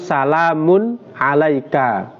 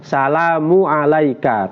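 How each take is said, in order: First: An n sound follows salamu before alaika. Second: No n sound follows salamu before alaika. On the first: The speaker calls it right. "harus ada tanwinnya" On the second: The speaker calls it wrong. "Tidak boleh salamu alaika tanpa tanwin"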